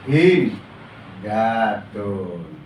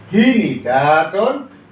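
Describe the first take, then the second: First: No vowel follows the n. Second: An i vowel follows the n. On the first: "dibaca taskun" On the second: "Fa fiilnya di kasrah, ain fiilnya ikut di kasrah"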